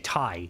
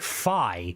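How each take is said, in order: First: It begins with a T sound. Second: It begins with an F sound. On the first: "we say thigh, like, to, to tie" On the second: "they pronounce it like an F, so they say fi"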